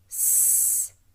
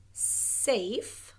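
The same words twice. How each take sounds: First: "safe" split, hissed S then a stretched long A to the F; sounding out. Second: Said in the usual way. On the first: Shown as a demonstration. Teacher helping pupils spell safe, sounding it out.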